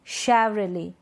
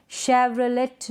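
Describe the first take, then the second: First: शेवरले ending on a vowel; silent T. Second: शेवरलेट ending on a t; T sounded. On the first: Teacher correcting the misreading, शेवरले without t. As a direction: say शेवरले with no final t. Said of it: "इसको हम पढ़ेंगे". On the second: Teacher showing the misreading, शेवरलेट with final t. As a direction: say शेवरलेट as "shev-ra-let". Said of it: "नहीं". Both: Shown as a demonstration.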